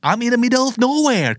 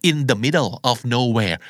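First: High-pitched, wailing complaint; distressed pleading. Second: Said in the usual way. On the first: Acted. Stranded caller tells a friend they are lost, distressed pleading. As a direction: complain helplessly with the pitch right up.

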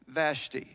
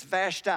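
First: "Vashti" low, with a long ee ending; northern pronunciation VASH-tee. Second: "Vashti" with a long i ending; southern pronunciation VASH-tie. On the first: Preacher giving the northern Persian version, "Vashti" said VASH-tee. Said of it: "you're from the north". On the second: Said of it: "If you're redneck southern Persia". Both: Shown as a demonstration.

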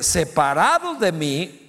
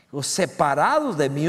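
First: Separados drawn out slow and firm, rising; slow emphatic reading; slow stress on separados. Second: Said in the usual way. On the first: Shown as a demonstration. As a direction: lean on separados de mí word by word. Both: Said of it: "Verso cinco, en la parte C".

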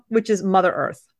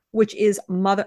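First: Said in the usual way. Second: "Mother" rising like an unsure question. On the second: Real, not acted. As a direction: ask "which is Mother" as if unsure of the word. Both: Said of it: "I said it as a question".

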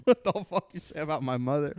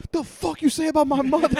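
First: Higher, hammed-up angry yell; mock rage. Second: Much higher, loud mock fury; delayed outrage. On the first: Student flipping his desk, hammed-up yell. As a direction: shout it at the teacher. Kid flips desk, repeated. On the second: Student finally getting the joke, loud mock outrage. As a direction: explode like the insult just landed. Kid finally reacts, angry.

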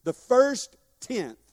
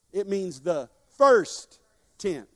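First: Slow, louder "first tenth", word by word; stress on first. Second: "first" slow and weighty, each word apart; stress on first. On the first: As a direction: drive "first" home slowly. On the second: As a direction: lean hard on "first", slowly. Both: Shown as a demonstration. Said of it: "Everybody look me in the eye".

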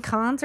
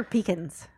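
First: "pecans" as pih-KAHNZ, AH in second syllable; pronunciation contrast. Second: "pecans" as PEE-kuhnz, stress first; pronunciation contrast. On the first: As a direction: say "pecans" with stress on a long KAHNZ. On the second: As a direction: say "pecans" with long PEE and weak ending. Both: Shown as a demonstration. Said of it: "Is it pecans or pecans?".

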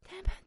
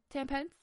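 First: Ten pence? shrieked much higher and louder; outraged disbelief. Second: Rising, incredulous ten pence?; disbelieving question. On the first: Ranting at the supermarket, shrill outraged repeat. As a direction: squeal Ten pence? in shock. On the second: Mocking the supermarket price, disbelieving rise. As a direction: ask ten pence? as if you can't believe it. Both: Real, not acted. Outrage at mouldy pumpkin price.

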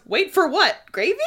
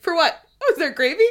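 First: A hint of Cassian, louder and higher; lightly voiced cheeky Cassian; playful Cassian. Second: Higher, louder, laughing mock cluelessness; clueless Cassian. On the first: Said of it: "I just love that Cassian goes". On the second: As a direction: play him oblivious, laughing. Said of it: "He's like".

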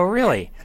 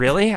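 First: "Really." high with a falling end; confirming. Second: "Really?" high with a rising end; questioning. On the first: Husband reassuring his wife, confirming "Really.". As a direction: answer "Really." pitched up, landing downward. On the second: Wife checking on husband's denial, questioning "Really?". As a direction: ask "Really?" as the wife, pitched up. Wife's questioning reply, retold. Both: Retold or imitated.

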